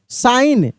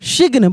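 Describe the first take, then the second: First: The word is said with no g sound. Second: The word is said with a g sound. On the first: The speaker calls it right. "यहाँ पे जी का उच्चारण नहीं हो रहा है" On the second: The speaker calls it wrong. "बहुत लोग सिग्न पढ़ देते हैं, सिग्न नहीं पढ़ते"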